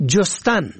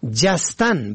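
First: جستن said "jostan"; damma on first syllable. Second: جستن said "jastan"; fatha on first syllable. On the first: Presenter teaching the verb for searching, جستن as "jostan". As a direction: open جستن with short o. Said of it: "به ضم اول". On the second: Presenter teaching the verb for leaping, جستن as "jastan". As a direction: open جستن with short a. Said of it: "به فتح اول". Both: Shown as a demonstration.

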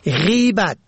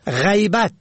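First: غیبت said "ghibat"; kasra on first syllable. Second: غیبت said "ghaybat"; fatha on first syllable. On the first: Presenter teaching the word for backbiting, غیبت as "ghibat". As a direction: open غیبت with long i. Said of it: "به کسر اول". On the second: Presenter teaching the word for absence, غیبت as "ghaybat". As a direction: open غیبت with the diphthong ay. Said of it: "به فتح اول". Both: Shown as a demonstration.

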